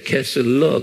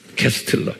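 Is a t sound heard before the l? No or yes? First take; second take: no; yes. First: It is said with no t sound. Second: It is said with a t sound. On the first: "T를 내가 말을 안 해줬어요. 캐슬러 그래요" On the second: "여기에 T가 숨겨져 있어요. 캐스틀러 이렇게 발음하세요"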